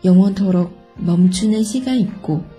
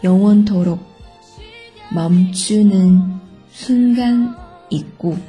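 First: It is read at normal speed. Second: It is read slowly.

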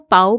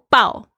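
First: The pitch rises from mid to high. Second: The pitch falls sharply from high. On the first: "全部都是不一样的意思" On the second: "全部都是不一样的意思"

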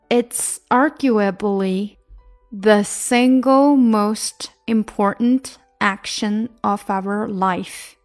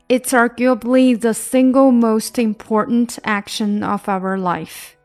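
First: The sentence is read at a slow pace. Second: The sentence is read at a fast pace. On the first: "先慢慢的。" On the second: "加速"

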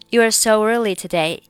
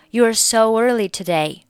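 First: A w glide links 'so' into 'early'. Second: A w glide links 'so' into 'early'.

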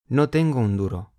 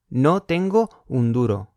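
First: "Tengo" and "un" are linked together. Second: "Tengo" and "un" are said separately. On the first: The speaker calls it right. "要说" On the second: The speaker calls it wrong. "有点奇怪，听起来不地道"

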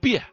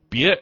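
First: It is said with a Northeastern dialect tone. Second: It is said with the standard Mandarin tone.

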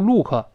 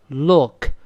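First: The L is vague, without the tongue tip raised. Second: The L is clear, with the tongue tip raised. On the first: The speaker calls it wrong. "注意不要读look" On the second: The speaker calls it right. "是了look"

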